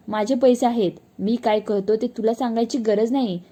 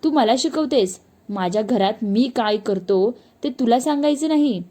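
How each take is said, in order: First: Irritated snap. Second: Put-on drunk yelling. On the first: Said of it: "तो लगेच चिडून म्हणायचा". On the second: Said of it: "उलट अजूनच ओरडायचा". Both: A narrator's reading.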